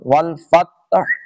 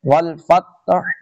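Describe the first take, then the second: First: The word ends with an audible breathy h sound. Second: The same.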